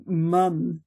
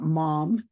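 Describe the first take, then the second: First: "mum" with a short British uh vowel; "mum" as said in Britain. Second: Said in the usual way. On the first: Shown as a demonstration. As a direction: say "mum" the British way, rhyming with "come". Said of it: "you have to say mum and not mom". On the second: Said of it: "and not mom".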